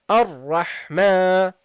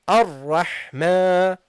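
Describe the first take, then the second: No difference in how they are said.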